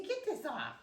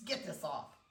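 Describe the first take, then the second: First: Higher puppy voice; playful high pet voice; speaking for puppy. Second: Said in the usual way. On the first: Pretend. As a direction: voice the puppy's complaint, pitched up.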